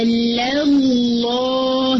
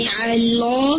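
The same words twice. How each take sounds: First: علی اللہ slow, the lam of اللہ kept light after kasra; correct light lam. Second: علی اللہ with a heavy lam after kasra; wrong heavy lam. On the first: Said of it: "صرف لفظ جلالہ کا لام heavy". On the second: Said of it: "علی اللہ نہیں". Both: Shown as a demonstration.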